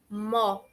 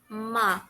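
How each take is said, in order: First: The vowel is a rounded 'o' sound. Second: The vowel is an open 'a' sound. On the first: The speaker calls it wrong. "A gente não pronuncia mo" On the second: The speaker calls it right. "a gente pronuncia ma, como se tivesse uma letra A ali no lugar do O"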